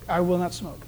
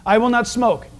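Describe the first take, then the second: First: Softer mumbled echo. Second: Said in the usual way. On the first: Shown as a demonstration. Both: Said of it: "Initial that".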